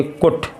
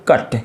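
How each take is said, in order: First: "कुट" with a short oo, rhyming with put; wrong vowel. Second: "कट" with a short uh vowel; correct vowel. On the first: Teacher showing how not to read cut, mispronounced. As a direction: misread cut as "कुट", with u sounded oo. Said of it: "इसको ऐसे थोड़ी पढ़ोगे". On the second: Teacher giving the right reading of cut, correctly pronounced. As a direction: say cut as "कट", with u sounded uh. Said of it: "यू को English में आ पढ़ते". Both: Shown as a demonstration.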